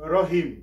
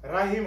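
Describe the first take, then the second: First: The first syllable has a rounded 'ro' vowel. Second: The first syllable has an open 'ra' vowel. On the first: The speaker calls it right. "এখানে হবে রহিম" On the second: The speaker calls it wrong. "এখানে রাহিম হবে না"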